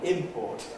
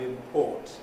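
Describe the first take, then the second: First: The stress is on the first syllable. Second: The stress is on the second syllable. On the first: It names the things brought in. "the noun import ... they're stressed on the first syllable" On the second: It names the action of bringing in. "the verb import ... the verb is stressed on the second syllable"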